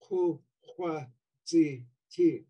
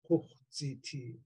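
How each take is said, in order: First: All four syllables keep their vowels. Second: The vowel of the second syllable drops out. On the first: This is the underlying form. "really what you have in underlying is" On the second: This is the Northern dialect form. "in Northern Tlingit, the a of hua drops out"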